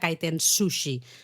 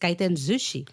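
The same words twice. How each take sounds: First: The second word begins with an s sound. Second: The second word begins with a z sound. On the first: The speaker calls it wrong. "No sería kaiten sushi" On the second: The speaker calls it right. "es kaiten sushi"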